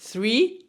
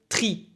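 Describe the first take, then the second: First: The word begins with a soft 'th' sound. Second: The word begins with a hard 't' sound. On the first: The speaker calls it wrong. "on va pas dire three" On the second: The speaker calls it right. "on va dire three, pour éviter les problèmes de prononciation du T H"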